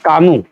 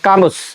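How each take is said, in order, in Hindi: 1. इस नाम का अंत स्वर पर होता है, इसमें s नहीं है। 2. इस नाम के अंत में स्पष्ट s की आवाज़ है। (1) "एस साइलेंट होता है" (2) "बहुत सारे बच्चे जिनको ज्ञान नहीं है वो इसको बोल देते हैं"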